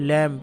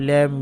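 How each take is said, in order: Both takes have the same delivery.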